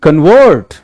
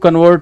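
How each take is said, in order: First: The stress is on the second syllable. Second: The stress is on the first syllable. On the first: The speaker calls it right. "your stress will be on the latter syllable" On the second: The speaker calls it wrong. "It's not like"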